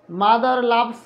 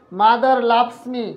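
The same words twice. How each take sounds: First: Said in the usual way. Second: Very slow, each word apart; slow dictation. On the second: Shown as a demonstration. Teacher reading the English example to students, very slow. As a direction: dictate it slowly for notes. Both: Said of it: "আর একটু ধীরে ধীরে বলবো".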